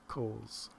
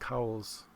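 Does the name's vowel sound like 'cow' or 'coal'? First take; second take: coal; cow. First: The vowel sounds like the one in 'coal'. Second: The vowel sounds like the one in 'cow'. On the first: This is how the namesake said his own name. "the guy that the mountain is named after pronounced his last name Coles" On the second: This is how most people say the name. "People pronounce it Cowles"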